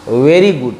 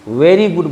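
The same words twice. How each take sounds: No difference in how they are said.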